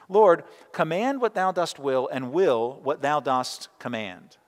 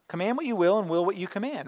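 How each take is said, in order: First: Archaic thee-and-thou prayer phrasing, "thou dost will" and "thou dost command" said as a stately slow recitation; old English wording. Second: Said in the usual way. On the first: Shown as a demonstration. Preacher quoting Augustine's prayer in old English, solemn and measured. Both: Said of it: "I revert to the old English".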